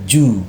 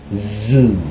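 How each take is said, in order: First: The word starts without a buzzing z sound. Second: The word starts with a buzzing z sound. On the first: The speaker calls it wrong. "not ju" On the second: The speaker calls it right. "but zoo"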